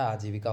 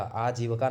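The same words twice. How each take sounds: First: "आजीविका" said correctly, with a clear vi-ka ending, aajeevika; the right "आजीविका": each vowel spelled out clearly; correct form shown. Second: "आजीविका" said as the wrong form, with a weak middle vowel, like aajeevaka; the incorrect "आजीविका": short, blurred vi sound; wrong form shown. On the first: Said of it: "आजीविका होता है". ("आजीविका" का सही उच्चारण, साफ़ वि-का) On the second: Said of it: "आजीविका नहीं होता है". ("आजीविका" का गलत रूप, बीच का स्वर दबा हुआ) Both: Shown as a demonstration.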